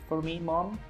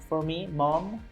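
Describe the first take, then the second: Both takes have the same delivery.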